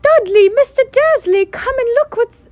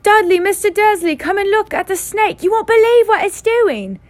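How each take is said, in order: First: Put-on very high, loud shouting boy; excited boy screaming for his father; deafening shout. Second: Very high, loud excited shout; boy shrieking to his father about the snake; deafening shout. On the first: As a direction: yell across the reptile house. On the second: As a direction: call the family over at full volume. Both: A narrator's reading. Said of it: "A deafening shout".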